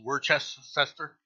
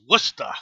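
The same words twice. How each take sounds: First: The name is sounded out as it is spelled. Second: The name is said the shortened local way. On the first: "it's spelled Worcester" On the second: "it's pronounced Worcester to the natives"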